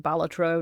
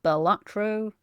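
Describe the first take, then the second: First: "Balatro" with the stress on the first syllable, BAL-atro; correct pronunciation. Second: "Balatro" with the stress moved to the second syllable, ba-LAT-ro; slow "Balatro", leaning on LAT; mistaken pronunciation. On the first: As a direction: punch the start of "Balatro", let the rest fall away. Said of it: "you are supposed to pronounce it Balatro". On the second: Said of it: "supposed to pronounce it Balatro, not Balatro". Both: Shown as a demonstration.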